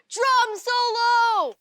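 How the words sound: The voice falls at the end, like a statement.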